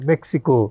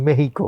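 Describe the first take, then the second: First: The middle consonant is a 'ks' cluster. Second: The middle consonant is a breathy 'h' sound. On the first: It follows the familiar English-based pronunciation. "আমরা মেক্সিকো বলতেই comfortable" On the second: It follows the original Spanish pronunciation. "আপনারা বলেন মেহিকো"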